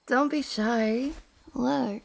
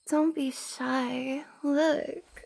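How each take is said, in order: First: It is said in the speaker's usual voice. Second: It is said in a raised, put-on voice.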